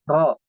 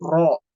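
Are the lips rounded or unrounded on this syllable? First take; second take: unrounded; rounded. First: The lips stay unrounded, not pushed forward. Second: The lips are pushed forward and rounded. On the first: The speaker calls it right. "tapi tidak memonyongkan bibirnya" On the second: The speaker calls it wrong. "Bukan bukan ro"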